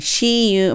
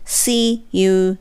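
First: The first word starts with a sh-like sound. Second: The first word starts with a clear s sound. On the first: The speaker calls it wrong. "絶対C にしたらおかしいですよね。" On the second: The speaker calls it right. "S っていう音にするっていうのがポイントですね。"

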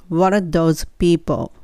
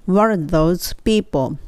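Both takes have the same delivery.

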